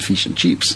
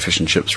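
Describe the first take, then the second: First: It is said in an Australian accent. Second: It is said in a New Zealand accent. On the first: "rather than fish and chips, which is how you can always tell an Australian" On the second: "We speak a little bit lower and say fish and chips"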